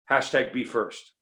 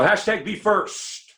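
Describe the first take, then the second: First: Said in the usual way. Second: Hashtag rising up high, slowly; high, slow hashtag be first. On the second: Shown as a demonstration. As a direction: sell hashtag be first with a lift. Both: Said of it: "So this week".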